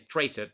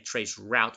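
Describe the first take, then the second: First: It is said as one clipped word. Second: It is said as two full words. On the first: The speaker calls it right. "we just say tracert" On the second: The speaker calls it wrong. "We don't say trace route"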